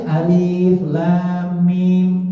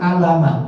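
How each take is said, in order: First: Each letter is said separately by its name. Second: The letters are run together as one word. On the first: The speaker calls it right. "harus bacanya alif lam mim" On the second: The speaker calls it wrong. "Nggak boleh dibaca alama kan"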